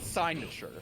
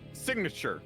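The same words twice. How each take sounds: First: The g is silent, like in sign. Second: The g is pronounced as a hard g. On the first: "Why isn't it signature?" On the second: "has a hard has a hard G in it"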